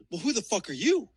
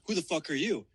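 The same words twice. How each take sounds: First: YOU jumps up at the end; retort stressing YOU. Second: Said in the usual way. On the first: Retold or imitated. Man answering the stranger at the pickup, challenging, YOU stressed. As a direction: throw it back, pitch rising on "you". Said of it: "And I said". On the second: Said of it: "he goes".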